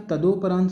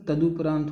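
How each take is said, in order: First: तदोपरांत with long "do", ta-do-pa-raant; wrong form pronounced. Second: तदुपरांत with short "du", ta-du-pa-raant; correct pronunciation. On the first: Teacher questioning a misspelling, wrong form sounded out. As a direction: say तदोपरांत with an o after the d. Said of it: "क्या तदोपरांत सही है?". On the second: Teacher correcting the misspelling, right form sounded out. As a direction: say तदुपरांत with a u after the d. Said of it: "दरअसल तदुपरांत होता है". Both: Shown as a demonstration.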